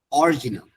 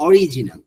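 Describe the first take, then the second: First: অরিজিনাল squeezed to "or-ji-nal"; wrong-way demo of অরিজিনাল with no vowel after r; common mispronunciation. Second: অরিজিনাল with a clear i after r; correct pronunciation. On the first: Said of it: "অধিকাংশ মানুষ এটাকে কি বলে". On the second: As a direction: slowly say অরিজিনাল as "o-ri-ji-nal". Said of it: "আর এর পর একটা আই আছে". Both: Shown as a demonstration.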